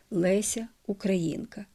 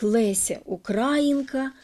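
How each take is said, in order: First: Українка stressed on the ї, УкраЇнка; correct stress. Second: Українка stressed on the а, УкрАїнка; misplaced stress. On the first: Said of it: "щоб називати достойну дочку". (правильний наголос: Леся УкраЇнка) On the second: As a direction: say Леся Українка with stress on укрА. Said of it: "звучить і українською, і російською". (помилковий наголос: Леся УкрАїнка) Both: Shown as a demonstration.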